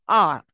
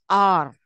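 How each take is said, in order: First: The word has a very short, reduced vowel. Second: The word has a long, full vowel. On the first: The word is unstressed. "when it comes to a weaker version, it is very short" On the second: The word is stressed. "the strong pronunciation ... where the vowel sound is long"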